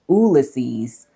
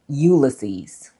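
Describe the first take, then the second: First: It is said with a Latin pronunciation. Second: It is said with a Dublin pronunciation. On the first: "in Latin, ... the Y is not pronunciated" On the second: "in Dublin"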